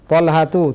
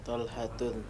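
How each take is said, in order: First: The name ends in 'tu' without a final n. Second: The name ends in 'tun' with a final n. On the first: The speaker calls it right. "tidak boleh ditanwin" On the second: The speaker calls it wrong. "salah kalau Talhatun"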